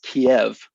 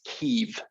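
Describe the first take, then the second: First: The name is said the Russian way. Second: The name is said the Ukrainian way. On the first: "If you are Russian, it is pronounced Kiev" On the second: "it is pronounced Kiev if you are Ukrainian"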